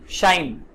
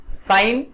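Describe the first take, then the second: First: शाइन begun with a hushing sh; sh sound. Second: साइन begun with a plain s; s sound. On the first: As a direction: say शाइन as "shine", not "sign". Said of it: "श का प्र". (शाइन को 'श' से बोलें) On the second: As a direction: say साइन as "sign", not "shine". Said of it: "स का प्रयोग है". (साइन को 'स' से बोलें) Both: Shown as a demonstration.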